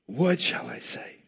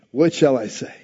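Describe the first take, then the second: First: Softer, slower, turned inward; hushed musing. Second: Said in the usual way. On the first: Shown as a demonstration. Preacher voicing Jesus's inner question, hushed and slow. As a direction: ask it quietly, as if to yourself. Repeated line, second take hushed.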